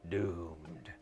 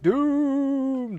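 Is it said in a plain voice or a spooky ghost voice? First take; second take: plain; spooky ghost. First: It is said in a plain voice. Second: It is said in a spooky ghost voice.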